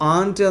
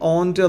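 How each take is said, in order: First: The vowel sounds like the a in 'ant'. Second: The vowel sounds like the o in 'ont'. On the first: The speaker calls it right. "ആൻറ്റ് എന്ന് പറഞ്ഞായിരിക്കും ഒന്നുകൂടെ നല്ലത്" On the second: The speaker calls it wrong. "ഓൻറ്റ് correct ആണെങ്കിൽ പോലും"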